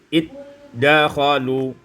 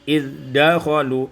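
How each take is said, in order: First: The z sound merges into a doubled d. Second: The z sound is kept before the d.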